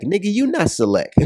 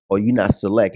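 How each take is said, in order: First: High-pitched, incredulous comeback; incredulous retort. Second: Said in the usual way. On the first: Real, not acted. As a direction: throw it straight back, pitched way up. Firing back at the comment.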